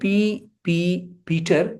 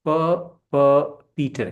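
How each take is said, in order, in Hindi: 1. दोहराया गया शुरुआती शब्दांश 'pee' है। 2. दोहराया गया शुरुआती शब्दांश 'pa' है। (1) "पी पी पीटर बोलना ज़्यादा सही है" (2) "बनिस्बत प प पीटर के"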